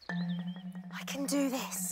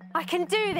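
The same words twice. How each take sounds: First: It is said quietly. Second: It is said loudly.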